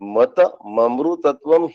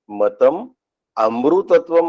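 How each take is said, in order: First: The words run together, the m joined to amritatvam. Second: The words are split apart, amritatvam starting separately. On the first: The text is read exactly as written. The speaker calls it right. "जसंच्या तसं" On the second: The sandhi is undone to show the separate words. The speaker calls it wrong. "असं नाही म्हणत"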